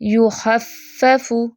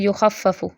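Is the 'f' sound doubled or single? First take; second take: Doubled; Single. First: The f sound is doubled and held longer. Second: The f sound is short and single. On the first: The speaker calls it right. "फ़ा की तशदीद को अच्छे से अदा करना है" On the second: The speaker calls it wrong. "इसको ऐसे नहीं पढ़ना"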